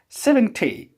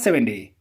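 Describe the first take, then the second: First: It is said with a British pronunciation. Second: It is said with an American pronunciation. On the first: The speaker calls it right. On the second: The speaker calls it wrong. "It is not seventy"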